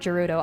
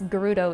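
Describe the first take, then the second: First: It begins with a soft G sound. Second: It begins with a hard G sound. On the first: The speaker calls it wrong. "I had been saying soft G" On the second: The speaker calls it right. "it's Gerudo"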